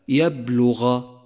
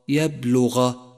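Both takes have the same delivery.

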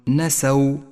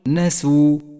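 First: The s is followed by an a vowel. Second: The s is followed by a u vowel. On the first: The speaker calls it wrong. "ولا تقل نسوا" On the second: The speaker calls it right. "قل نسوا"

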